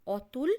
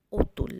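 First: অতুল with an open "aw" at the start, "aw-tul"; open-a pronunciation. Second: অতুল said "o-tul", with a rounded o at the start; altered o pronunciation. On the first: Teacher giving the spelt form first, open "aw-tul". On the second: Teacher showing how it is really said, rounded "o-tul". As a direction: round the first vowel of অতুল to "o". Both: Shown as a demonstration. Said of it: "অ এর উচ্চারণ ও এর মতো".

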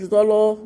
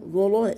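First: "ظلا" with heavy, dark "لا"; wrong heavy vowel. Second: "ظلا" with heavy ظ, light fronted "لا"; thin out the lam in "ظلا". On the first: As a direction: make both syllables of "ظلا" heavy. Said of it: "ما تقولش ظلا". (نطق "ظلا" بتفخيم اللام خطأً) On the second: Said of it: "لام مرققة". (نطق "ظلا" بترقيق اللام) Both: Shown as a demonstration.

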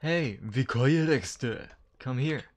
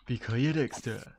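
First: Slow, loud mock Japanese accent. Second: Put-on loud Japanese accent on the name. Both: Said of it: "Why you have to put that in a Japanese accent".

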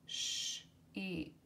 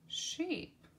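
First: Sheep breathed in a whisper. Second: Sheep sung out high; high voiced repeat. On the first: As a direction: hush the word sheep. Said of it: "word said twice". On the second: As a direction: brighten sheep way up. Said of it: "second take of word". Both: Shown as a demonstration.

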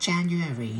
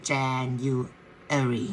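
First: Said in the usual way. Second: January stretched very slowly, each syllable drawn out. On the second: Shown as a demonstration. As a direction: spell out January slowly for learners. (พูด January ช้าๆ ทีละพยางค์) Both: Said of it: "ช้าๆนะ".

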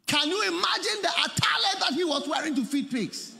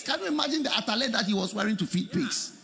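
First: Preaching shout. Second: Said in the usual way. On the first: Acted. Repeated question, second shouted.

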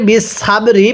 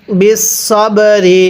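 First: সাব with an open long "aa" on purpose; wrong pronunciation. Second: সব with a short rounded vowel, not "saab"; correct pronunciation. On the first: Teacher shows students the wrong way to say বিস সব রি. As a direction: say বিস সাব রি with a flat open vowel as a mistake. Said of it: "পড়লে পড়াটা সহি শুদ্ধ হবে না". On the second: Teacher shows students the right way to say বিস সব রি, careful and clear. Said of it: "এটাকে বিস সাব রি পড়লে ... শুদ্ধ হবে না". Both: Shown as a demonstration.

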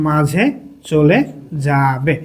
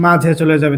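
First: Low, drawn-out words with pauses; one word at a time, as if writing; slow dictation. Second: Said in the usual way. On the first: Shown as a demonstration. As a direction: stretch the final word out.

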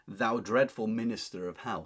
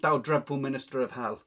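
First: Said in the usual way. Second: Loud curse. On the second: Acted. Anne cursing Richard.

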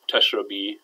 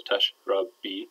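First: Said in the usual way. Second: "tashrabi" drawn out slowly in three separate syllables. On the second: Shown as a demonstration. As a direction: break "tashrabi" into tash, rab, bi at half speed. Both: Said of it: "might be three syllables".

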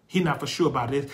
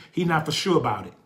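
Both takes have the same delivery.

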